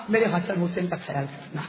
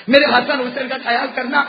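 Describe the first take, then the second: First: Low, soft dying whisper-like plea; mother entrusting her sons, softly; hushed plea. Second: Said in the usual way. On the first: Acted. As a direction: let it sink to a tender murmur. Dying mother's last request, repeated.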